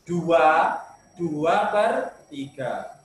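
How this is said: There is a pause after the first 'dua'. It is read as a mixed number. The speaker calls it right. "Penyebutannya dikasih jeda"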